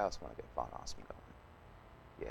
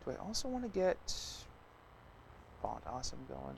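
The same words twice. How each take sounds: First: Whispered to himself, much softer. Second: Said in the usual way. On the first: Real, not acted. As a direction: breathe it out as a private aside. Repeats the same thought under breath.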